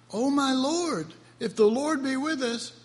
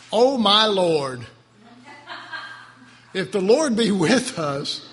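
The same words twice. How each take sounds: First: Compassionate reading. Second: Loud, slow aggrieved complaint; rough-state Gideon. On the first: Preacher reads the verse for Gideon's sake, with compassion. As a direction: read it gently, pitched up, with pity for Gideon. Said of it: "tried to read this one with compassion". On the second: Preacher rereads Gideon in a rough state, loudly aggrieved. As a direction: push it out loud and drawn out, as a grievance. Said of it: "Gideon's state's pretty rough". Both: Shown as a demonstration.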